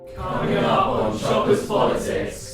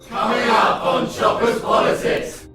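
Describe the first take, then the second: First: It sounds flat and unenthusiastic. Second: It sounds eager and enthusiastic.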